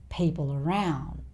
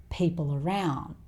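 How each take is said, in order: Both takes have the same delivery.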